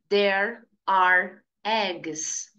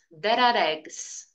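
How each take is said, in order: First: The words are said slowly and separately. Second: The words run together smoothly and quickly. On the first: The speaker calls it wrong. "Não tem como falar assim, fica muito devagar" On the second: The speaker calls it right. "Se acostume a linkar o som das palavras"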